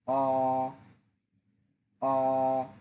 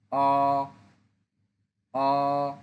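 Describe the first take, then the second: First: অ held level and long; Mandarin first tone. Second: অ rising upward; Mandarin second tone. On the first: Teacher drills the first tone on অ, level. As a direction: keep অ flat and sustained. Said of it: "যখন first tone". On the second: Teacher drills the second tone on অ, rising. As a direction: let অ climb up at the end. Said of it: "second tone". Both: Shown as a demonstration.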